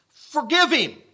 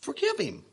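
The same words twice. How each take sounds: First: Said in the usual way. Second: Quiet voice of the Lord. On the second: Retold or imitated. The Lord's answer.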